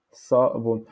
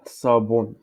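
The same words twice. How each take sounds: First: "Sabon" cut into sa, bon; syllable-by-syllable "Sabon"; syllabes séparées. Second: Said in the usual way. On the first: Shown as a demonstration. (« Sabon » dit sa... bon) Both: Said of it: "en darija, on dit".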